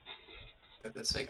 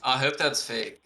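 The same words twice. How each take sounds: First: Soft unvoiced whisper, slow. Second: Said in the usual way. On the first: Real, not acted. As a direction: breathe it out quietly. Repeats line, whispered.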